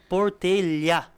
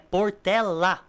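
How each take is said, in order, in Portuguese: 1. O último L é palatal, como o duplo L do espanhol. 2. O último L é um som de L simples e comum. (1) "eu acabei pronunciando Portelha... é o espanhol na minha cabeça... dois L no final" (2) "só que é Portela"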